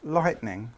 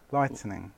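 First: "Lightning" as light-ning, no vowel between; two-syllable lightning. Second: Softer "Lightning", as light-uh-ning; extra syllable in lightning. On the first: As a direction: say "Lightning" with the T running straight into N. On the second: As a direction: put an extra vowel after the T in "Lightning". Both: Shown as a demonstration. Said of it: "You put an extra T in it".

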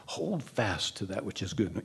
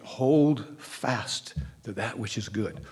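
First: Said in the usual way. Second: Slow scripture quote. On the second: Shown as a demonstration. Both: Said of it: "And there is the statement".

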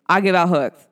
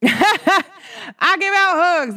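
First: Said in the usual way. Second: High, slow, drawn-out with a laugh; laughing sing-song. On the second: Shown as a demonstration. Telling friends she gives hugs, slow laughing sing-song. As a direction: stretch each word out, laughing and much higher.

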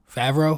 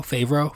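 First: Favreau said as FAV-roh with a short a, like in fat, and a questioning rise. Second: Favreau said as FAY-vroh with a long a, like in fay, and a questioning rise. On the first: Testing the name on listeners, Favreau as FAV-roh rising. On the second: Second guess at the name, Favreau as FAY-vroh rising. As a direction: try Favreau as FAY-vroh, still unsure. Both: Shown as a demonstration. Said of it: "Shout out to Jon Favreau".

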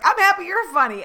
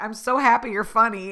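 First: Much higher and louder, bursting with delight; squealing happy comeback; gleeful echo. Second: Said in the usual way. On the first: Retold or imitated. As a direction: throw his compliment right back, thrilled. Gleeful reply to Uber driver.

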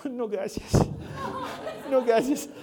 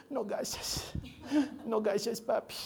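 First: Put-on toddler voice. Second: Put-on faint, weak baby voice; a sick little girl whimpering thanks; sick toddler voice. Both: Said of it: "habla como bebé todavía".

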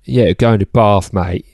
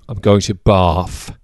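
First: "Bath" said "Baf" in a light South London accent, "mate" tacked on; a lightly voiced South London lad saying "Bath" and "mate". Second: Bath said as "Baf" in a light British accent, drawn out slowly; going to "Bath" like a Londoner, the th turned to f. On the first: Joking to a friend in a light South London accent. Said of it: "that's very South London". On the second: Telling a friend about a trip in a put-on London accent. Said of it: "I said B A F there because in a British accent". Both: Shown as a demonstration.

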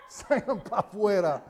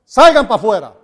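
First: Laughing. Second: Commanding. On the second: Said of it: "los sacó a todos pa' afuera". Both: Retold or imitated.

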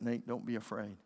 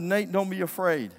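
First: Put-on lower, softer word to a child; calm reassurance. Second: Put-on raised, firm order to a child; commanding. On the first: Dad to his son after the danger, low calm reassurance. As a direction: settle it down, low and soft. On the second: Dad orders his frightened son not to fear, raised command. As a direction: say it loudly, as an order. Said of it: "It was a command".

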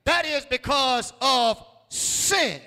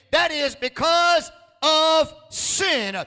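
First: Said in the usual way. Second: "That is because of sin" slow and louder, leaning on "because"; emphatic slow repeat. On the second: Shown as a demonstration. Preacher repeating a third time for emphasis, slow and weighty. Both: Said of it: "I'll say that the third time for emphasis' sake".

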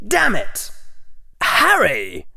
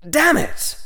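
First: High, wounded outburst with a superior edge; hurt but still looking down. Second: Draco cursing; high, frustrated outburst. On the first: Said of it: "sounded wounded and maybe a little superior". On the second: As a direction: curse in boyish frustration. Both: Acted.

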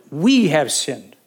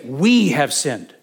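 First: Slow emphatic stress on we; we pressed hard; slow, heavy confession repeated. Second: Slow and grave; slow, weighty confession. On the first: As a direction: say it like a bowed admission. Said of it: "He puts himself right in the middle of it". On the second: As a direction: lean on each word. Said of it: "He said". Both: Retold or imitated.

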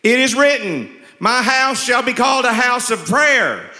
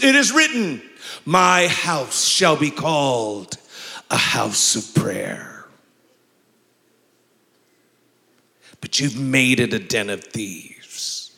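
First: High, loud, stagey Jesus line; hammy loud recital; first stiff audition. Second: Slow, measured Jesus voice; the way he was taught. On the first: Retold or imitated. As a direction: overact it like a nervous first reading. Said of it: "he gives me this script and I say". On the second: Shown as a demonstration. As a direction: deliver it with grave authority, stretching each phrase. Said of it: "I had to say it like this".

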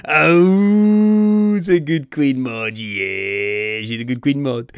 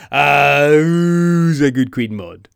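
First: Talking to a dog. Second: Put-on slow, loud baby talk to a pet; talking to a dog. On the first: Retold or imitated. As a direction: gush over a good doggy. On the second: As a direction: coo at her like a good doggy. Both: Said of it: "makes her sound like a Doug".

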